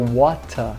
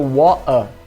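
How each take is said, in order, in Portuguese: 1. O R final vira uma vogal parecida com A. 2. Tanto o T quanto o R final são omitidos. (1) "no sul da Inglaterra seria water, é, comendo o R final" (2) "no norte da Inglaterra seria water. Então eu vou comer o T também"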